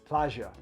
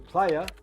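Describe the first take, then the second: First: It is said in the Rioplatense Spanish accent. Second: It is said in the familiar Mexican-style accent. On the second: "if you're used to"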